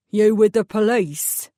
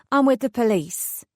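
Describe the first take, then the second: First: Slow, gruff East End question; an East End mechanic sizing up a stranger; suspicious East End accent. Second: Said in the usual way. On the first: Acted. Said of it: "distinctly East End accent".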